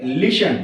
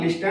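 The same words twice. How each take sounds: First: "लिसन" with only an S in the middle; "लिसन", T dropped; silent T. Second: "लिस्टन" with ST in the middle; wrong-way "लिस्टन", T audible; T sounded. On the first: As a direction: say "लिसन" without a T. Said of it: "इसको पढ़ेंगे लिसन". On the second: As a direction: say "लिस्टन" pronouncing the T. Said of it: "not लिस्टन". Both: Shown as a demonstration.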